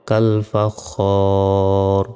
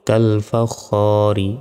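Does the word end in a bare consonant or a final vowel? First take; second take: bare consonant; final vowel. First: The word ends on a bare consonant. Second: The word ends with a short final vowel. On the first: The reader stops at this word. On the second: The reading continues without stopping.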